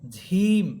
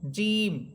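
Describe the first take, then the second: First: The first consonant is breathy, like jh. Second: The first consonant is a plain j sound. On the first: The speaker calls it wrong. "ঝিম এমনটা হবে না" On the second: The speaker calls it right. "জিব্বার মধ্যখান উপরে তালুর সাথে লাগবে"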